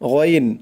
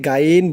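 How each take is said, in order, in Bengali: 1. প্রথম ধ্বনিটি ভারী এবং কণ্ঠ থেকে। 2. প্রথম ধ্বনিটি একটি হালকা সাধারণ g। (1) "মোটা করে বলতে হবে" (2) "এরকম বলা যাবে না"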